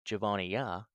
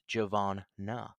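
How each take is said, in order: First: The name has an extra 'ee' syllable before the end. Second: The name has no extra 'ee' syllable before the end. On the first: The speaker calls it wrong. "so you do not say Javonia" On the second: The speaker calls it right. "it's Javonna"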